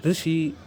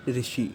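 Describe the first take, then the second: First: ऋषि with a trilled vocalic ṛ at the start; correct ऋषि. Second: ऋषि said as plain rishi with an ordinary ri; wrong rishi. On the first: Teacher contrasting correct ऋषि with the common wrong one. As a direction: start ऋषि on a vibrating tongue-tip ṛ. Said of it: "ऋषि इसका सही उच्चारण नहीं है". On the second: Teacher showing the wrong ऋषि to avoid. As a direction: say ऋषि the common Hindi way, rishi. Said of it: "ना कि ऋषि". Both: Shown as a demonstration.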